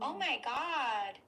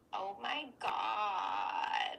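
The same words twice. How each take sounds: First: It is said in a normal clear voice. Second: It is said low with a creaky voice.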